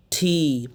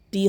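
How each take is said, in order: First: T said as breath-puffed "thee"; aspirated T. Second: T said wrongly as plain Bengali "ti"; short "ti" with no air; unaspirated T. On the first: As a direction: release air on T, stretch "ee". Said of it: "ঠ করতেছি". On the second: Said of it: "টি হবে না". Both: Shown as a demonstration.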